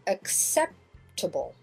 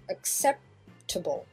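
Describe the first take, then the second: No difference in how they are said.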